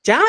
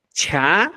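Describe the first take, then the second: First: CHA with a plain unaspirated ch; simple ch. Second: CHA with a puff of air after ch; aspirated ch. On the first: Teacher contrasting consonants, simple CHA. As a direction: say CHA with no puff or pop. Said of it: "Cha es simple". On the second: Teacher contrasting consonants, aspirated CHA. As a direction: breathe out through the ch of CHA. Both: Shown as a demonstration.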